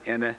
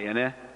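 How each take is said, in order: First: The word is said on a mid tone. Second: The word moves from low to high tone. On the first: It means madam. "with mid-tone, it's madam" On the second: It means a kind of tree. "pronounce it with low high"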